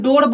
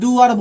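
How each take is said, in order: First: The vowel is a single long o sound. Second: The vowel is u gliding into a. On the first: The speaker calls it right. "इसको हम डोर बोलेंगे" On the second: The speaker calls it wrong. "ना कि डूअर बोलेंगे"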